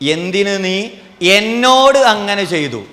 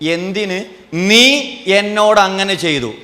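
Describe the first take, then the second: First: The stress falls on the word എന്നോട്. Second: The stress falls on the word നീ. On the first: Whom it was done to is the issue. "എന്നോട് ചെയ്തതാ പ്രശ്നം" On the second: Who did the act is the issue. "നീ ചെയ്ത പ്രശ്നം"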